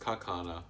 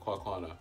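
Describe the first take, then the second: First: The name begins with a 'ka' sound. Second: The name begins with a 'kwa' sound. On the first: The speaker calls it right. "Or ka? ... Oh, it's Kakwana" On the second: The speaker calls it wrong.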